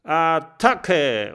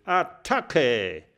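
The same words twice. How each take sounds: First: Attacke! laut und höher aus vielen Kehlen gebrüllt; Attacke! als Schlachtgebrüll der Meute. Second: Attacke! höher, fremde Stimme, kräftig gerufen; Attacke! als Befehl des Anführers; ruft. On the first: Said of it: "brüllen". (Attacke! laut gebrüllt) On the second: (Attacke! gerufen, etwas lauter) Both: Acted.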